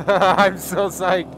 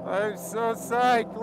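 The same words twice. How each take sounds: First: "I'm" stretched loud and slow; slow loud stoked delivery; loud slow excited. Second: "psyched" drawn out softly, falling; quiet slow savoring; soft drawn-out higher. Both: Real, not acted.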